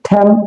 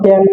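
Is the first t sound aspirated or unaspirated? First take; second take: aspirated; unaspirated. First: The first t has a strong puff of air. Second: The first t is plain, without a puff of air. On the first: The speaker calls it right. "সেটা হচ্ছে কি ঠ্যাম" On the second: The speaker calls it wrong. "আমরা বলতাম টেন"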